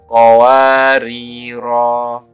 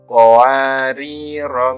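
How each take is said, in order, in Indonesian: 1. Vokal akhirnya dibaca panjang. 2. Vokal akhirnya pendek. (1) "huruf ro dibaca panjang satu alif" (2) "dibaca pendek kalau diwasolkan"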